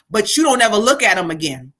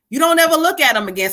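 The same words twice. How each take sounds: First: Said in the usual way. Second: Higher, quicker, pressing on ever; emphatic repeat. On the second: Acted. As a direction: drive the line home a second time. Repeats the auntie's message.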